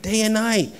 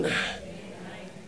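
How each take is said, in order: First: Said in the usual way. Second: Slow breathy whisper of "Day and night"; whispered answer. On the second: Acted. Preacher answering his own question to the congregation, slow whisper.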